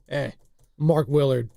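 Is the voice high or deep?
deep. It is said in a deep, mature voice.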